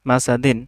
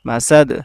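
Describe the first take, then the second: First: The word ends with a full -in ending. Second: The word ends cut off on the final consonant. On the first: This is the full form read without stopping. "দাল দুই জের দিন মাসা দিন" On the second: The reader stops on this word. "দালে কি দিতে হবে জজম দিতে হবে"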